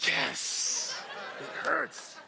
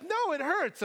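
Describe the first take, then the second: First: Hissed, voiceless yes of victory; mock triumph. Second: Put-on high-pitched child's complaint; imitated little daughter. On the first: Relieved dad celebrates the answer, mock triumphant hiss. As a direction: hiss the yes like a secret win, then pitch up. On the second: Daughter answers dad's question, imitated high child voice. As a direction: complain in a small girl's high voice. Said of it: "And she's like".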